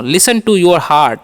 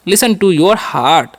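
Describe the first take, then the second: First: "Listen to your heart" said slowly, word by word; slow model. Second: "Listen to your heart" again slowly, stress on listen; slow repeat. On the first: Teacher modelling the English phrase slowly. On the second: Teacher repeating the English phrase slowly. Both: Shown as a demonstration. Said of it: "ऐसे बोल सकते हैं".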